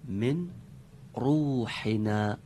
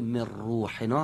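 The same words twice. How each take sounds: First: The n is kept separate before the r. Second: The n is merged into the r. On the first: The speaker calls it wrong. "اینطور بخونیم" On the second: The speaker calls it right. "من روحنا هم بگیم درست تر هست"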